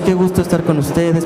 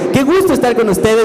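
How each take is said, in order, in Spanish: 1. Se dice con una voz plana y de poca energía. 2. Se dice con una voz animada y llena de energía. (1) "Si yo llego y les digo" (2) "No es lo mismo que si les digo"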